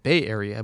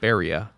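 First: It is said as two separate words. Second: It is said as one merged word. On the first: "You said Bay Area" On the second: "we can mash up those words and Baria"

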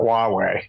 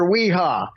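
First: The name is pronounced like 'wah-way'. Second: The name is pronounced like 'wee-ha'. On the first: The speaker calls it right. "we realized he was talking about Huawei" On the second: The speaker calls it wrong. "some people butcher it so badly"

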